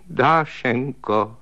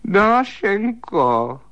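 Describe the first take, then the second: First: Slow, drawn-out whimpering call of her name; tearful call. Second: High, very slow wailing "Dášenko"; long, high, plaintive cry of "Dášenko"; wailing call. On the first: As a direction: plead with her like a frightened child. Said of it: "řekl plačtivým hlasem". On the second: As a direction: wail her name into the dark. Calling her again in the dark. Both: Acted.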